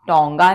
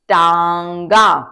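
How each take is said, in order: First: The first vowel sounds like 'o'. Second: The first vowel sounds like 'aa'. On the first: The speaker calls it wrong. "टोंगा नहीं है ये" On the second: The speaker calls it right. "ये है टांगा"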